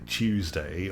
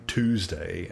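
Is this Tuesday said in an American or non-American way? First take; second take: non-American; American. First: It is said with a non-American pronunciation. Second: It is said with an American pronunciation. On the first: "we say Tuesday" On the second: "Americans say Tuesday"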